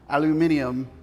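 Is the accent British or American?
British. It is said in a British accent.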